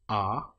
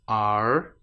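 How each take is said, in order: First: No r sound is pronounced at the end. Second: An r sound is pronounced at the end. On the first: The speaker calls it right. "say the word are there as just are, then well done" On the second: The speaker calls it wrong. "If you said are, then maybe try it again"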